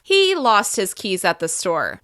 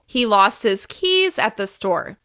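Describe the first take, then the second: First: The word he is stressed. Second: The word keys is stressed. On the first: It was this man, not someone else. "When I increase my pitch on the word he" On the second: It was the keys, not the wallet. "By emphasizing keys more than the rest of the other words"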